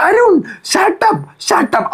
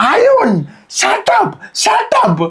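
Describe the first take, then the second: First: Much higher, very slow, drawn-out "Arun, shut up"; stretched mock outburst. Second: Much higher, squeaky mock "shut up"; mock sudden outburst. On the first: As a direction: stretch the name out high and slow, then snap shut up. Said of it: "ഇവിടെ നിന്ന് ഇങ്ങനെ എത്തിയിട്ട്". (അരുണിനോട് നീട്ടി വലിച്ച് ഉയർന്ന ശബ്ദത്തിൽ shut up) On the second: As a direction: leap in and squeal it at Arun. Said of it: "ചാടി നിന്നിട്ട്". (അരുണിനോട് പെട്ടെന്ന് ചാടിക്കയറി കീച്ചിയ ശബ്ദത്തിൽ ഷട്ടപ്പ്)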